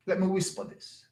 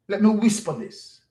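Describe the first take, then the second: First: Hushed, voiced aside; much softer, still voiced; mock whisper. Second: Said in the usual way. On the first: Real, not acted. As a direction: drop right down as if confiding.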